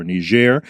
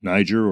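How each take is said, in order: First: Niger said the French way, nee-ZHAIR; French pronunciation. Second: Said in the usual way. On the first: Shown as a demonstration. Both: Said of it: "the French pronunciation".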